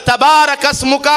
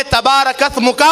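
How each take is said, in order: First: تبارک اسمک with a clear hissed s in اسمک; تبارک اسمک with a true seen; correct seen. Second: تبارک اسمک with th replacing the s in اسمک; تبارک اسمک with tha instead of seen; wrong th sound. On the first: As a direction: recite تبارک اسمک properly, s not th. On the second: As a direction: mispronounce تبارک اسمک, tongue between teeth for th. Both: Shown as a demonstration. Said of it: "سین کو سا پڑھ دیا".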